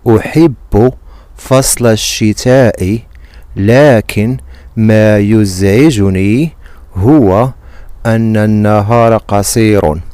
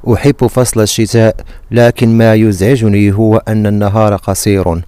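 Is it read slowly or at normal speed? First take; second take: slowly; normal speed. First: It is read very slowly. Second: It is read at normal speed.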